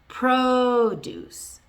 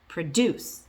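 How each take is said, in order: First: The stress is on the first syllable. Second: The stress is on the second syllable. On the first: It is used as a noun. "if it's a noun, the stress is on the first syllable" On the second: It is used as a verb. "If it's a verb"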